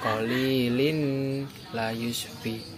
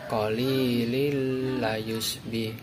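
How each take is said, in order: First: The n is pronounced separately before the l. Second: The n merges into the l without nasal hum. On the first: The speaker calls it wrong. "bukan qalilin layusbih, itu salah" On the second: The speaker calls it right. "Cara membaca yang benar yaitu qalilil layusbih"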